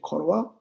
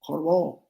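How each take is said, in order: First: It is said the Tibetan way, ending in a. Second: It is said the Mongolian way, ending in o.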